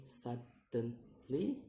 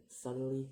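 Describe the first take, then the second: First: "suddenly" slowly in three beats, rising sharply at the end; syllable by syllable. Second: Said in the usual way. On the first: Shown as a demonstration. Teacher demonstrating syllables, "suddenly" slow and split. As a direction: break "suddenly" apart and lift the last. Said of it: "three syllables to say". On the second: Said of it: "in ly".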